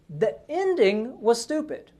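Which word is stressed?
ending. The stress falls on the word ending. Only the ending was bad; the other parts were good. "implying the other parts were pretty good"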